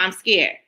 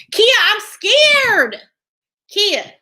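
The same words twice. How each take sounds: First: Said in the usual way. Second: High, loud and drawn-out "Kia, I'm scared"; mock scared whine. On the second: Telling chat viewer Kia she's too scared to watch, hammed-up whine. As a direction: ham up being scared, stretching "scared".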